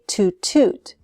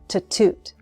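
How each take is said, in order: First: Both words have a long oo vowel. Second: The first word has a short reduced vowel. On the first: The speaker calls it wrong. "with two long oo sounds" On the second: The speaker calls it right. "the vowel sound is reduced"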